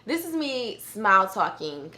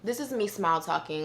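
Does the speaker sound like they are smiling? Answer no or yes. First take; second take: yes; no. First: It is spoken while smiling and showing teeth. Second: It is spoken without smiling or showing teeth. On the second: "Now I'm gonna say that without smile talking"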